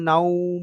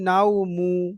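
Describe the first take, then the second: First: The word ends on the consonant m. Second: The word ends with a short u vowel. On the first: The reader stops after this word. "তখন পেশটা আর থাকবে না" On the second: The reader continues without stopping. "যখন আপনি থামবেন না তখন আপনি নাও মু"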